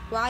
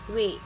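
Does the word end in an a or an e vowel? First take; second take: a; e. First: The word ends in an a vowel. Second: The word ends in an e vowel. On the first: This is the standard form of the word. "ada juga wa yang arti babi" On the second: This is how it is sometimes spoken in the local accent. "pronounce-nya kadang-kadang seperti we"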